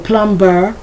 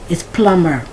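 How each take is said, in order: First: The B sound is pronounced in the middle. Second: The B sound is silent in the middle. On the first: The speaker calls it wrong. "but you don't say plumber" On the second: The speaker calls it right.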